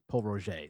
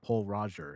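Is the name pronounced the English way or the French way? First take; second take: French; English. First: The name is said with a French pronunciation. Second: The name is said with an English pronunciation. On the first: The speaker calls it right. "It's Paul Roger. It's just the pronunciation" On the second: The speaker calls it wrong. "people say, oh, I'm going to pick up Paul Roger"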